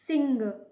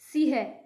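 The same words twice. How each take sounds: First: The vowel is said with a clear nasal sound. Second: The vowel is said without any nasal sound. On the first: The speaker calls it right. "इसमें अंग की आवाज आपको सुनाई दे रही है" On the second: The speaker calls it wrong. "अगर हम डोट नहीं लगाएंगे तो इसे बोला जाएगा सिंह। सिंह कोई शब्द नहीं होता"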